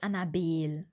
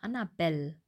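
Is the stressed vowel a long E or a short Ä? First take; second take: long E; short Ä. First: The stressed vowel is a long closed E. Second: The stressed vowel is a short open Ä. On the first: The speaker calls it wrong. "nicht Annabel" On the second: The speaker calls it right. "so Annabelle"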